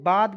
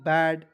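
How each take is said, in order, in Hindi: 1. स्वर एक लंबी खुली 'aa' ध्वनि है। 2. स्वर एक सपाट आगे की 'ae' ध्वनि है। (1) "इसे बाद भी पढ़ा जाता है" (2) "ए आई से आई की मात्रा हो जाएगा बैड"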